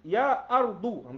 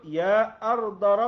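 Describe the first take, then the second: First: The word ends with a 'u' vowel. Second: The word ends with an 'a' vowel. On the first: The speaker calls it right. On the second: The speaker calls it wrong. "Ana ana ana baca silap"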